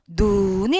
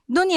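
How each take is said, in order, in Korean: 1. 모음을 길게 늘여서 발음해요. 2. 모음을 짧게 발음해요. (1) "내리는 눈은 여러분, 긴 눈이에요" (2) "이 사람 눈은 짧아요"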